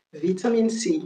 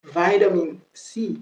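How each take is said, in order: First: British "vitamine", short first i and a clear t; British pronunciation. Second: American accent. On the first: Teacher showing the British version, British accent. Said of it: "La prononciation british". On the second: Teacher contrasting with British, American accent. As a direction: draw out "vitamin" slowly, American style. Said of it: "Ça, c'est les Américains". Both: Shown as a demonstration.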